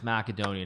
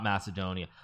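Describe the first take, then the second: First: The name is said with its local pronunciation. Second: The name is said with its English pronunciation. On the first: The speaker calls it right. "in the proper language of the country, it's Macedonia" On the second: The speaker calls it wrong. "not Macedonia"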